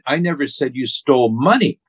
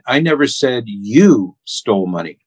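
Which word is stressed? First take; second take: money; you. First: The stress is on the word money. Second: The stress is on the word you.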